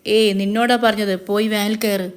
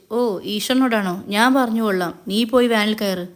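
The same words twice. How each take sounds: First: Mildly angry, impatient command; understated irritated insistence; angry order. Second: Understated derisive tease; mocking. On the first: Acted. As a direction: order with a touch of temper. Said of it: "Mahesh ദേഷ്യത്തോടെ". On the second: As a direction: brush off the plea with mild mockery. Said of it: "കളിയാക്കിക്കൊണ്ട് Mahesh".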